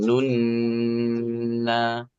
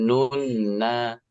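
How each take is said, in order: First: The n sound is held for three counts. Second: The n sound is short, not held. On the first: The speaker calls it right. "tapi nun na; Bunyi N-nya tahan tiga" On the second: The speaker calls it wrong. "bukan nun na"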